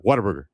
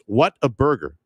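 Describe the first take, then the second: First: The name is said quickly, run together. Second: The name is said slowly, word by word.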